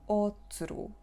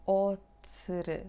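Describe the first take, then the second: The two takes are said the same way.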